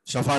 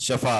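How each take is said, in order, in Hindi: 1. पहला स्वर छोटा 'a' है। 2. पहला स्वर छोटा 'a' है।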